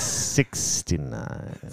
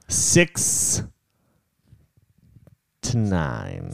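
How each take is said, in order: First: It is said quickly, running together. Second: It is said at a normal, unhurried pace.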